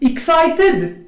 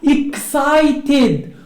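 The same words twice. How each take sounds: First: The ending is a bare d sound. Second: The ending is an id syllable. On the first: The speaker calls it wrong. "غلط، نو" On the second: The speaker calls it right. "هذه كتقرا excited، راه هاد ايدي كتقرا ايد"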